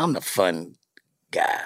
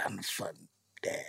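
First: Said in the usual way. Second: Breathy aside, half voice; hushed joke about being the fun dad; whisper. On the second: Real, not acted. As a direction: whisper it like a secret boast. Whispered repeat of fun guy line.

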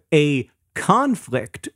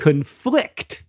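First: "conflict" as a noun, CON-flict; first-syllable stress. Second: "conflict" as a verb, con-FLICT; second-syllable stress. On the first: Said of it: "stress on the first syllable". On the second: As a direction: punch the end of "conflict". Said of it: "stress on the second syllable". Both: Shown as a demonstration.

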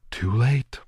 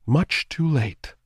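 First: Eerie, higher ghostly taunt; cold ghost girl. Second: Slow, higher eerie drawn-out doom; slow ghostly taunt. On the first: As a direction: pronounce his doom coolly. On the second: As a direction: draw it out, savoring it. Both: A narrator's reading. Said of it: "she told him".

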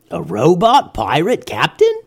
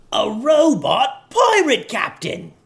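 First: Curious pirate. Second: High, slow, excited pirate shout; excited yell. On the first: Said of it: "thought one pirate out loud". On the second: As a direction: cheer it out with joy. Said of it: "yelled another pirate excitedly". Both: A narrator's reading.

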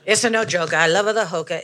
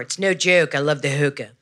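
First: Italian lady. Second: Baltimore lady. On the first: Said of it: "I guess the Italian lady". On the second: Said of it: "the lady from Baltimore". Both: Acted.

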